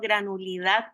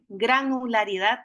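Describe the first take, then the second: First: The word is said with one syllable dropped. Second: The word is said with five full syllables. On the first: The speaker calls it wrong. "no granulidad, que a veces le dicen" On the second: The speaker calls it right. "lo podamos pronunciar bien"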